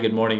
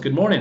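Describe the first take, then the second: First: The voice is flat with little pitch movement. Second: The voice is lively with energetic pitch movement. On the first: The speaker calls it wrong. "don't be monotone" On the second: The speaker calls it right. "I want to show some excitement"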